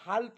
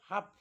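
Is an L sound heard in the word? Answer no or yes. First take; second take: yes; no. First: An L sound is pronounced before the final consonant. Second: No L sound is pronounced in the word. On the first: The speaker calls it wrong. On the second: The speaker calls it right.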